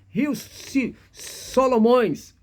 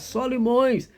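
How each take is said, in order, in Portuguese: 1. A segunda sílaba tem a vogal 'oh'. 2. A segunda sílaba tem a vogal 'ee'. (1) "era essa pronúncia" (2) "ó, Solimões"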